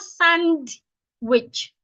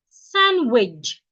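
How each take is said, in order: First: A D sound is pronounced in the word. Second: No D sound is pronounced in the word. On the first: The speaker calls it wrong. "Sandwich is not sandwich" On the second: The speaker calls it right. "The D should not be pronounced"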